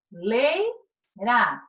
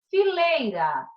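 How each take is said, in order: First: Fileira slowed, syllables pulled apart; slow syllable split. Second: Said in the usual way. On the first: Shown as a demonstration. Teacher splitting fileira for students, slow syllables. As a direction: say Fileira slowly, one syllable at a time. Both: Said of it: "duas vogais permanecem juntas".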